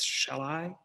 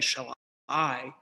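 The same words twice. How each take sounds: First: The stress falls on the word shall. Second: The stress falls on the word I. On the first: The speaker calls it right. "it's shall I" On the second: The speaker calls it wrong. "you don't say shall I"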